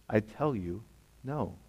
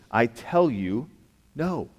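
First: "I tell you, no" dropped soft, with "no" almost breathed; quiet repeat. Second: Slow, firm "I tell you", then a lifted "no"; emphatic answer. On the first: Preacher repeating Jesus' answer, soft and hushed. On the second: Preacher giving Jesus' answer, slow and emphatic. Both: Shown as a demonstration. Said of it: "And again, he says these very words".

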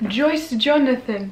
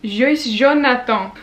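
First: "Joyce Jonathan" said the English way; English pronunciation. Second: "Joyce Jonathan" slowly in a French accent. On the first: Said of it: "mais ce n'est pas". (« [name] » prononcé à l'anglaise) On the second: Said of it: "comment on dit [name] avec un accent français". (« [name] » lentement, avec l'accent français) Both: Shown as a demonstration.

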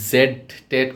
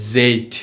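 First: Said in the usual way. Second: "জেড" with a long voiced Z buzz; tongue forward, sustain the Z in "জেড"; slow, stretched "জেড", buzzing onset; buzzed letter Z. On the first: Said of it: "এরকমভাবে হবে না". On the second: Shown as a demonstration. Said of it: "জি এর মতো".

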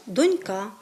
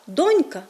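First: Донька with the beat on the final КА; stress on last syllable. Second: Донька with the beat on ДОНЬ; stress on first syllable. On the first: Teacher showing how people say it differently, stress on доньКА. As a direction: push the stress to the end: доньКА. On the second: Teacher showing how people say it differently, stress on ДОНЬка. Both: Shown as a demonstration. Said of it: "чуємо різне наголошування цих слів".

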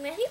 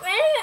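First: Said in the usual way. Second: Higher, louder strained call; doing push ups. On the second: Real, not acted. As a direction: call his name while straining through a rep.

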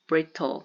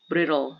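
First: "brittle" with a crisp T in the middle; "brittle" with the T fully sounded; clear T pronunciation. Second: "brittle" with the T softened to a quick tap; casual American "brittle" with a flapped T; flapped T pronunciation. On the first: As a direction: say "brittle" as BRIT-tul. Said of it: "그런데 brittle 이렇게 발음". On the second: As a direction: say "brittle" as BRID-ul. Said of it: "이렇게 발음 많이 되겠죠". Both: Shown as a demonstration.

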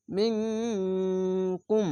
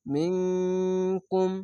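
First: মিনকুম sung slowly, nasal held long; slow chanted মিনকুম; ikhfa gunna. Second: মিনকুম with the nasal hidden and held long; chanted মিনকুম with long nasal hold; ikhfa gunna. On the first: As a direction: stretch মিনকুম with a hummed ং. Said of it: "মিম নুন জের মিং". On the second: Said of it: "এখানে ইকফা গুন্না". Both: Shown as a demonstration.

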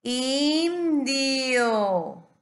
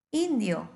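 First: INDIO stretched long, loud and high; drawn-out demonstration. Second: Said in the usual way. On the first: Shown as a demonstration. Teacher helping a child, INDIO loudly drawn out. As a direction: hold both I sounds in INDIO, raised voice. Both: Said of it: "A ver, te ayudo".

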